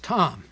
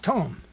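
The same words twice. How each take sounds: First: The word is read as an English spelling. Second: The word is given its Hebrew pronunciation. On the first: "If you look at it in English, it says" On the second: "if you look at the pronunciation in Hebrew"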